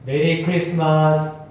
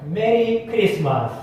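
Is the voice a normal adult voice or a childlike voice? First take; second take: normal adult; childlike. First: It is said in a normal adult voice. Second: It is said in an imitated child's voice.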